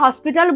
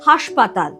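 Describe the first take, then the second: First: The word ends with a pital sound. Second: The word ends with a patal sound. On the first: This is the original form used by the educated. "যারা শিক্ষিত তারা হসপিটাল বলি" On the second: The form changed as it spread among ordinary people. "সাধারণ মানুষ তারা বলে হাসপাতাল"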